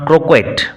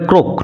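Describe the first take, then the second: First: The word ends with a clear t sound. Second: The word ends without a t sound. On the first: The speaker calls it wrong. "Not ক্রোকেট" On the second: The speaker calls it right. "উচ্চারণ হবে ক্রোক"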